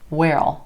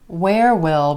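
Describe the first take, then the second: First: Will is reduced and joined onto where. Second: Will is said as a full separate word. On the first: "a really funny sounding one" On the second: "Where will becomes where'll"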